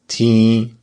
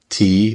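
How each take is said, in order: First: The vowel is nasal, air through the nose. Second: The vowel is oral, without nasal sound.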